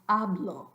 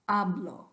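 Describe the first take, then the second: No difference in how they are said.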